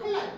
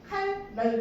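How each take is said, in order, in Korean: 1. 두 번째 음절은 l 소리로 시작해요. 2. 두 번째 음절은 n 소리로 시작해요. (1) "칼날 이렇게 발음하잖아" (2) "칼날 이렇게 하지 않고"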